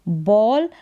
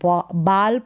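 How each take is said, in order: First: The vowel is a rounded 'aw' sound. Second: The vowel is an open 'aa' sound. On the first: The speaker calls it right. "फिर यहाँ पर है बॉल" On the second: The speaker calls it wrong. "ए को आ नहीं पढ़ेंगे कि बाल पढ़ दे"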